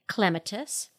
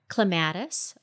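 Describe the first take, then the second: First: It is said the way British speakers say it. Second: It is said the speaker's usual, non-British way.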